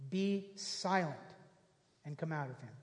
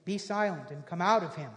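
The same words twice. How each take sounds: First: Slow, softer, dropping away; quiet, slow emphatic repeat; slow, soft restatement. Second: Said in the usual way. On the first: Shown as a demonstration. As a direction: let each word sink in slowly. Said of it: "repeated slowly".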